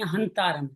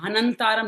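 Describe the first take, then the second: First: Only a half 'n' follows 'ha'. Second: A full extra 'na' syllable follows 'ha'. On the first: The speaker calls it right. "आधा नया हंतारम, हंतारम है" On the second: The speaker calls it wrong. "आप नया हंतारम ने दो ले लिया, हनंतारम नहीं"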